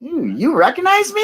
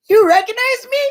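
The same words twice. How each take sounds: First: Much higher, flattered surprise; surprised delight. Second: Much higher and louder, stunned disbelief; astonished shout. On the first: Retelling being recognized at the rally, high and flattered. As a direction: gasp it out like being caught off guard by a fan. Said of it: "I went". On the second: Repeating her own amazement at being recognized, high and loud. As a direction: shriek it like you can't believe it. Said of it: "I'm like". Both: Retold or imitated.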